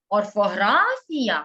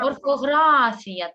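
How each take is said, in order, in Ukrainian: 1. Вимовлено з питальною інтонацією. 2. Вимовлено з рівною, ствердною інтонацією.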